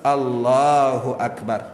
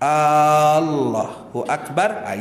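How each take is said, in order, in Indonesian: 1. Vokal pertama diucapkan pendek. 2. Vokal pertama diucapkan panjang. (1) "macam biasa saja" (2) "bila tuan-tuan panjangkan pada perkataan A depan tu ... itu salah"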